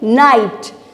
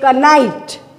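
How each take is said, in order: First: The initial K sound is silent. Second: The initial K sound is pronounced. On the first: The speaker calls it right. "we say knight" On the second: The speaker calls it wrong. "we don't say knight"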